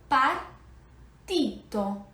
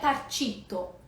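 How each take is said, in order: First: The t before the i is a plain t. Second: The t before the i sounds like ch. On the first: The speaker calls it right. "é partito" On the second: The speaker calls it wrong. "não é partito"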